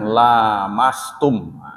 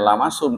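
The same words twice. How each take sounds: First: The first vowel after the l is long. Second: The first vowel after the l is short. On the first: It means touching each other mutually. "lamnya panjang" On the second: It means simply touching. "bukan dibacanya lamastum"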